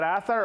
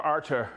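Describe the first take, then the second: First: Arthur said "ATH-uh", th in the middle; Arthur with a soft th. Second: Arthur said "AR-ter", t instead of th; Arthur with hard t. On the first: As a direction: say Arthur with a th sound and a weak ending. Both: Shown as a demonstration. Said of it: "is that Arthur or Arthur?".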